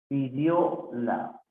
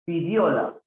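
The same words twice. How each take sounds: First: "Pidióla" slow, with "la" set apart; broken into syllables. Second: Said in the usual way. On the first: Shown as a demonstration. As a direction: separate the last syllable of "Pidióla". Teacher breaks word up. (separando las sílabas, despacio)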